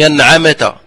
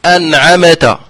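First: أنعمت with a jolted mim; mock the bounce on the mim of أنعمت; imitating reciters' error. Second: أنعمت with an extra vowel after the mim; imitating the error. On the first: Teacher imitates the mim qalqala mistake. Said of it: "كثير من الناس يقلقون". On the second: Teacher repeats the mistaken mim. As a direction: mimic reciters bouncing أنعمت. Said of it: "يقولون".

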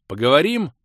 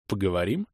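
First: Higher, louder call to talk; raised voice. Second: Said in the usual way. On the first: A narrator's reading. Leader addressing the crusader again, raised voice. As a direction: raise your voice to get attention. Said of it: "повысив голос".

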